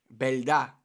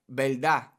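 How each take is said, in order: The two takes are said the same way.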